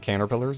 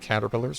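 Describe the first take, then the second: First: The word is pronounced in a comic, mangled way. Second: The word is pronounced in the ordinary way.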